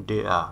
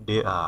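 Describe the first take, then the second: No difference in how they are said.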